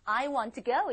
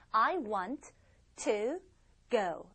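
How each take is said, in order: First: It is read smoothly without a pause. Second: It is read with a pause around 'to'.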